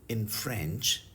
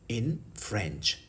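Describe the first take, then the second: No difference in how they are said.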